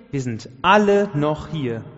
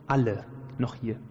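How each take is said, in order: First: Retold shout. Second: Said in the usual way. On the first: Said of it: "Und dann Hals durchs Gefängnis".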